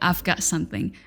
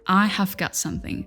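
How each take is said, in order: First: I have is contracted to I've. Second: I have is said fully as two words.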